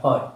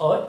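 First: OUGHT, meaning "what", with an h sounded first; wrong pronunciation. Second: OUGHT, meaning "what", with no h at the start; right pronunciation. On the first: Teacher showing learners what to avoid, OUGHT with a sounded h. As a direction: say "what" as "hot", aspirated. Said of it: "বা not ought". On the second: Teacher showing learners the right pronunciation, OUGHT without an h. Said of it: "right pronunciation হলো". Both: Shown as a demonstration.

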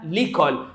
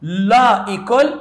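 First: "ليكول" joined as one word; elided form. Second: "لا إيكول" slowly, as two words; unelided form. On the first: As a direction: drop the first vowel, say "ليكول" in one go. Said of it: "لا إيكول قلنا عليها ليكول". ("ليكول" مدغومة في كلمة واحدة) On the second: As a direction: stretch "لا", then a separate "إيكول". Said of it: "قلنا عليها ليكول". ("لا إيكول" ببطء وكلمتين منفصلتين) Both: Shown as a demonstration.

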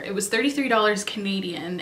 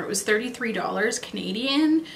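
First: Said in the usual way. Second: Real voice crack on Canadian, the phrase otherwise spoken normally. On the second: Real, not acted. Telling viewers the eyeliner price, voice accidentally cracks. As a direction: let the voice break on the last word. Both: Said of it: "I don't know why my voice cracked there".

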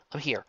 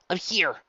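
First: Breathless. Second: Louder, breathless reassurance. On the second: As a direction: gasp it out urgently. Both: A narrator's reading. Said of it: "he said breathlessly".

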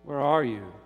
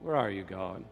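First: Firmer, mildly raised divine call; God crying out. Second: Low, subdued plea to God; forlorn question. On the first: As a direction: cry it out, with restraint. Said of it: "cried God". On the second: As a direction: ask it as a lost, lonely soul. Human calling out to absent God. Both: Acted.

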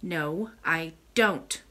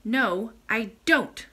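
First: Very slow, sulky denial; understated sullen boy, drawn out; almost sulky. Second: Slow, firm, mildly offended denial; a touch of offence, each word weighted. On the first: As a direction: drag the words out with a slight sulk. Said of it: "almost sulkily". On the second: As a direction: insist with wounded pride, drawing it out. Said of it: "reiterated Curdie in an offended tone". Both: A narrator's reading.

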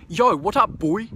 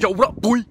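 First: Raised, loud greeting in a New Zealand accent. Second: Loud, high put-on African American accent. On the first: Vlogger contrasting the line in his less cool New Zealand accent. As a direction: call it out in your own New Zealand accent. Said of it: "talking in my New Zealand accent". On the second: Vlogger suddenly busting out of his New Zealand accent, loud African American imitation. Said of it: "this African American". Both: Shown as a demonstration.

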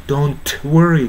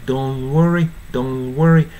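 First: "don't worry" with the final t of "don't" sounded; T pronounced. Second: "Don't worry" with no t, like "don worry"; T dropped. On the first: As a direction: release a clear t before "worry". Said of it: "この場合のtoはね". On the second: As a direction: run the n straight into "worry". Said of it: "完全に無視してもいいかな". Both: Shown as a demonstration.

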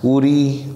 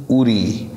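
First: Said in the usual way. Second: উরি with weight on the first vowel; stressed opening উ in উরি. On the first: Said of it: "আমরা জেনে গেলাম". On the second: Shown as a demonstration. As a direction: press the উ of উরি. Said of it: "উর উপরে একটা stress পড়েছে".

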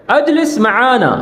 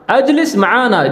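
First: معانا with a throaty Arabic ain, said slowly; careful Arabic ain in معانا; Arabic ain sound. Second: معانا with the Arabic ain at normal pace; Arabic ain in معانا again; Arabic ain sound. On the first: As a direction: stress the ain in معانا, slow and clear. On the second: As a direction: repeat معانا with the throaty ain. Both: Shown as a demonstration. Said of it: "عین کی آواز نکالی ہے".

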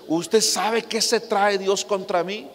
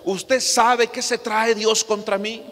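First: Mild mock anger, slow and drawn out; angry woman quoted. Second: Lightly voiced woman from church, a little higher and slowed; hint of a puzzled church sister asking the pastor; church sister quoted. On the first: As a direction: imitate her grievance lightly, slowly. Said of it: "Y muy enojada me dice". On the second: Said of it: "me dice una vez una, una hermana".

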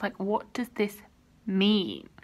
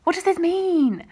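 First: Said in the usual way. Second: Loud, high exclamation of real bewilderment; baffled outburst. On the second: Real, not acted. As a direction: cry it out, desperate for an answer. Repeats baffled question, escalating.

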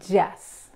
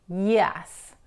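First: "yes" with a J sound and teeth together; wrong J sound. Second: "yes" with a Y glide, teeth apart; right Y sound. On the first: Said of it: "no es yes". ("yes" incorrecto con J) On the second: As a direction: say "yes" like Spanish ll, not J. ("yes" correcto con Y suave) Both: Shown as a demonstration.

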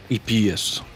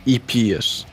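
The two takes are said the same way.

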